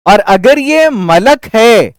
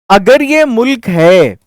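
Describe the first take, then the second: First: मलक said slowly as "malak", two clear short a sounds; slow careful malak. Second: मुल्क said slowly as "mulk", a short u after the m; slow careful mulk. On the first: Teacher setting मलक against मुल्क for students, slow. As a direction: spell out मलक with open a vowels, slow. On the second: Teacher showing students मुल्क, slow and careful with the u. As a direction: spell out मुल्क with a clear u sound, slow. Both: Shown as a demonstration. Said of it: "पेश है इसके ऊपर".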